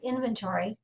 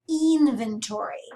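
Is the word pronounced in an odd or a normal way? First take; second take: normal; odd. First: The word is pronounced in the usual way. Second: The word is pronounced in an odd way. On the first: "the word I'm saying is inventory" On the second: "I'm pronouncing that a little weird"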